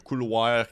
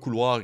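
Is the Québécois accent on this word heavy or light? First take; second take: heavy; light. First: It is said with a heavy Québécois accent. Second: It is said with a lighter, more neutral accent.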